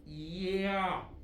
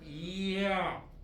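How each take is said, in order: The two takes are said the same way.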